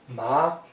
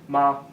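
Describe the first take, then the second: First: The pitch rises from middle to high. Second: The pitch is light and unmarked. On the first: It means hemp. "Second tone, rising tone" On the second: Added at the end, it makes a question. "final neutral tone, which is nice and easy"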